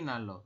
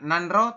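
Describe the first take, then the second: First: The middle is said with a single l sound. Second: The middle is said with an n and r. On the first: The speaker calls it right. "tapi nalo" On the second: The speaker calls it wrong. "Ini bukan nanro"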